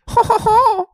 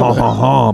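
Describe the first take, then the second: First: The laugh is pitched higher. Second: The laugh is pitched lower.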